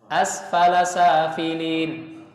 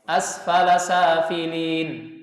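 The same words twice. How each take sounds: No difference in how they are said.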